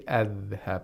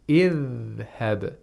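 First: The word begins with an a vowel. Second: The word begins with an i vowel. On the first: The speaker calls it wrong. "We don't say adhhab" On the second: The speaker calls it right. "We say idhhab"

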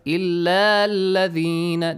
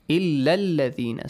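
First: The final vowel of illa is held long. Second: The final vowel of illa is kept short. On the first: The speaker calls it wrong. "So do not recite it as illa-ladhina. This is wrong" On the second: The speaker calls it right. "Short vowel will be pronounced. No long vowel"

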